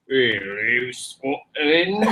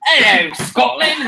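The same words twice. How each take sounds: First: Put-on lower, deeper Scottish accent take. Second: A quick high Scottish accent attempt. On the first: Told to go deeper, a lower Scottish accent. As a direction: drop it low like the Scottish hills. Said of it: "it's a little deeper". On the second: Asked to do Scottish, a light mock Scottish accent. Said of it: "do a Scottish accent".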